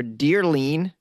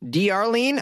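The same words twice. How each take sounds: First: Dearlene slowly, as one word starting like "dear"; name run together. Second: D Arlene said as letter D, then "Arlene"; name as two parts. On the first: Host offering another guess at the patron's name, Dearlene as one word. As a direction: say Dearlene as "DEER-leen", drawn out. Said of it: "I hope I'm saying it right, or". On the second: Host trying a new patron's name, D Arlene as "dee ar-LEEN". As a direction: stretch out D Arlene with the D as its own high "dee". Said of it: "I hope I'm saying it right". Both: Shown as a demonstration.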